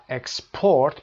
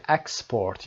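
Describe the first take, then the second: First: "اکسپورت" stressed on its last syllable, PORT; second-syllable stress. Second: "اکسپورت" stressed on its first syllable, EX. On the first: Teacher contrasting verb for students, "اکسپورت" stressed on PORT. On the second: Teacher contrasting noun for students, "اکسپورت" stressed on EX. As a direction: noun form of "اکسپورت", EX-port. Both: Shown as a demonstration.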